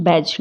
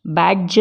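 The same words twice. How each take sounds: First: बैज with a simple j; बैज, no separate d; silent D. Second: बैज with a d before the j; बैज, d stop released into j; sounded D. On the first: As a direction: say बैज as baj, low. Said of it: "क्या बोलते हैं?". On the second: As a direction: say बैज as bad-juh. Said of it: "बैज नहीं बोलते हैं". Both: Shown as a demonstration.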